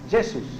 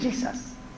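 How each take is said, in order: First: The name is said with Brazilian Portuguese pronunciation. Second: The name is said with English pronunciation. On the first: "Los brasileños le llaman Jesús, porque la J la pronuncian como Y" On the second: "Los ingleses le dicen Jesus"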